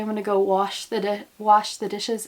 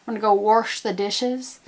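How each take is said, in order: First: Said in the usual way. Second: "wash" said as "warsh" with an R, rising; Appalachian warsh. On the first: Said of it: "instead of saying". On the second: Shown as a demonstration. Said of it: "There's an R sound".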